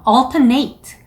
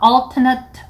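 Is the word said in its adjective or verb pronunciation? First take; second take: verb; adjective. First: It is pronounced the way the verb sounds. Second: It is pronounced the way the adjective sounds. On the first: The speaker calls it wrong. "동사처럼 alternate 라고 발음하시는 분들이 많거든요" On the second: The speaker calls it right. "형용사일 때에는 alternate 이라고 해주시면 돼요"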